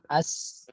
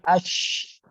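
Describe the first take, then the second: First: It ends with a plain s sound. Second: It ends with an sh sound. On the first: The speaker calls it wrong. "Syanya jangan as" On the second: The speaker calls it right. "tapi ash"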